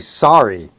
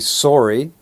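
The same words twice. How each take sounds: First: It uses the general American O vowel. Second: It uses the Canadian-style O vowel. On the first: "while the rest of the states say sorry" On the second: "Some parts of the States and a lot of Canada say sorry"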